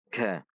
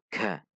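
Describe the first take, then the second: First: The consonant has a strong puff of air. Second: The consonant has a strong puff of air.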